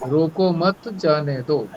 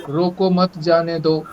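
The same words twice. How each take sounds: Both takes have the same delivery.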